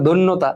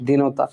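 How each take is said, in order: First: দৈন্যতা said as the word to avoid; the incorrect দৈন্যতা, named plainly; দৈন্যতা said once as the mistake; wrong word form. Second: দীনতা said lower as the right answer; দীনতা said as the correct form; correct word form. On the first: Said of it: "না বলে আমাদের বলতে হবে". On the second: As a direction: settle on দীনতা, dropping the pitch. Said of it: "আমাদেরকে বলতে হবে হচ্ছে". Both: Shown as a demonstration.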